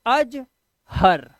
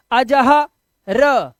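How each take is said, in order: First: अजहर as two words, अज then हर; correct word reading. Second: अजह loud and stretched, र cut off separately; wrong split reading. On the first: Teacher showing how to form the word, correct reading. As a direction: say अज, short gap, then हर with no vowel after र. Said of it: "शब्द बनाना है तो बोलेंगे". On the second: Teacher showing how you never say it, wrong split reading. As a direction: belt अजह, pause, then a lone र. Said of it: "ऐसे आप बोलते ही नहीं". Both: Shown as a demonstration.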